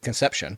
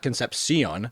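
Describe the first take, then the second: First: The name ends with a 'shun' sound. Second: The name ends without a 'shun' sound. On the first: The speaker calls it right. "It's actually Shun, he pronounces it" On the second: The speaker calls it wrong.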